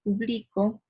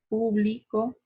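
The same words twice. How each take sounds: No difference in how they are said.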